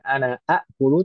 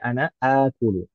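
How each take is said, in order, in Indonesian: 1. Akulu diawali dua hamzah yang terpisah. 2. Akulu diawali satu vokal panjang, tanpa hamzah kedua. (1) "Bukan ana akulu" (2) "tapi ana akulu"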